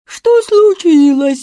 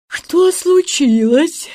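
First: Loud, high, drawn-out mocking echo; mimicking. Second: High, slow drowsy question; sleepy. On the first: Ludwig mimics sleepy Jacob, loud mocking. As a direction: exaggerate the slow sleepy question in mockery. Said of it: "передразнил его Людвиг". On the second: Jacob asks without opening his eyes, sleepy. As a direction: ask slowly, still half asleep. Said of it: "спросил Якоб, не открывая глаз". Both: A narrator's reading.

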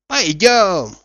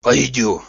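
First: High, louder call to go; hearty, raised-pitch suggestion; eager invitation. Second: Said in the usual way. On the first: A narrator's reading. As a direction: invite a pal along with a lift in the voice. Coachman invites Zakhar along. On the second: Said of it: "повторил Захар".

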